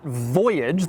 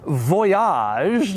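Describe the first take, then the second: First: The word is said with an English pronunciation. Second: The word is said with a French pronunciation. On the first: The speaker calls it wrong. "not Voyage" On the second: The speaker calls it right. "it is pronounced Voyage, ... They wanted to give it a little French flair"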